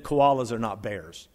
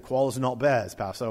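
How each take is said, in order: First: Said in the usual way. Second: Rough imitation of an Aussie accent; badly faked Australian, said in passing; terrible Australian accent. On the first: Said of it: "Terrible accent". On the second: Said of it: "Terrible accent. I do his Australian accent".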